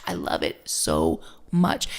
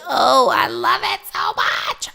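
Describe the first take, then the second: First: Said in the usual way. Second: Loud, joyful cry of love; an exclamation of pure joy; delighted outburst. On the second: Real, not acted. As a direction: burst out with real delight. Delight at her affirmation.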